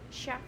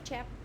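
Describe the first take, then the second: First: The word begins with a 'sh' sound. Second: The word begins with a 'ch' sound. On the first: The speaker calls it right. "Mình đọc là sh" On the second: The speaker calls it wrong. "not chef"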